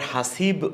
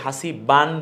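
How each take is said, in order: First: The word ends on a bare consonant. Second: The word ends with a nasal 'an'. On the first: "আবার হাসিব ও বলছি না" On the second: "হাসিবান বলছি না"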